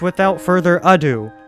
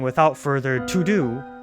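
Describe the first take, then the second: First: The last word begins with a vowel sound. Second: The last word begins with a 't' sound. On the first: The speaker calls it right. "when it's without further ado" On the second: The speaker calls it wrong. "I've been saying it wrong all along"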